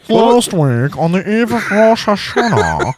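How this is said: It is read imitating a British reporter's voice.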